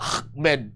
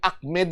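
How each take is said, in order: First: It is said with a harsh, throaty, phlegmy sound. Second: It is said plainly, without a throaty sound. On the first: "Iranian with the phlegm type pronunciation" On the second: "kung ordinaryo lang"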